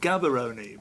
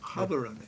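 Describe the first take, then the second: First: The name begins with a hard G sound. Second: The name begins with a breathy H sound. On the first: "it's written Gaborone" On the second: "I said it properly"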